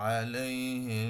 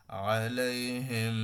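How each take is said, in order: First: আলাইহিম very slow, ম held with a nasal hum into the next word; recitation with ghunna. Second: আলাইহিম drawn out slowly, nasal hum on the final ম; recitation with ghunna. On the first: (আলাইহিম ধীরে, গুন্নাসহ মিলিয়ে) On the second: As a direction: recite আলাইহিম slowly, holding the ম through the nose. (আলাইহিম ধীরে, ম-এ গুন্না টেনে) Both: Shown as a demonstration. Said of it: "same উচ্চারণ".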